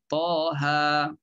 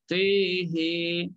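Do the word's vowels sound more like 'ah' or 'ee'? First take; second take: ah; ee. First: The vowels are open, like 'ah'. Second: The vowels are fronted toward an 'ee' sound. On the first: This is the commonly heard reading. "Itu yang selalu kita baca" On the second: This is the reading of one particular tradition. "ha pun imalah, maka bunyinya tihi"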